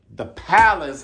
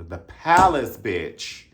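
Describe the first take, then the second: First: Loud, high hype call; hyping up the old club again; excited shout-out. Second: Put-on hyping up the old club; excited shout-out. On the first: Acted. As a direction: call it out louder still. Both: Hyped shout-out.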